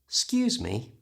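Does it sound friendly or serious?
friendly. It sounds friendly, with the first syllable dropped. A polite request or apology. "that sounds friendly"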